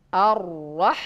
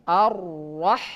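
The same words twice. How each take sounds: No difference in how they are said.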